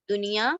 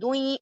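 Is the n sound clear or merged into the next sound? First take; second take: clear; merged. First: The n sound is pronounced clearly before the y. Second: The n sound is merged into the following y. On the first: The speaker calls it right. "नून की आवाज को इजहार करके, जाहिर करके पढ़ेंगे" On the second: The speaker calls it wrong. "दुई इस तरह नहीं पढ़ेंगे"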